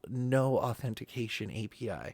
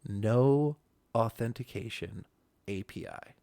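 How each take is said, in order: First: It is said in a plain, ordinary voice. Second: It is said in a smooth, buttery, relishing voice.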